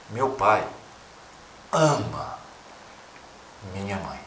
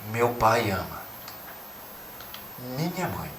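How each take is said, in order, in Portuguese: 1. A palavra ama está acentuada. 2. A palavra mãe está acentuada. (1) "ora para o amor" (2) "ora para a mãe"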